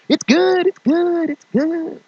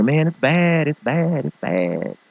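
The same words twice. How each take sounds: First: Very high forced cheery squeak; fake it's good. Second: Admitting it's bad. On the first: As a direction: insist all is fine, far too brightly. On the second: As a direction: drop the act and deflate.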